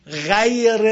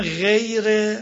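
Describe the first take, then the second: First: "غیر" loud, with an exaggerated open a before y; wrong open vowel. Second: "غیر" drawn out with a full e; wrong closed vowel. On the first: Teacher shows what is not said, "غیر" too open. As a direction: stretch "غیر" as a wide "ghaayre". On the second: Teacher shows what is not said, "غیر" with pure e. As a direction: say "غیر" slowly as "gheyre", too closed. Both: Shown as a demonstration.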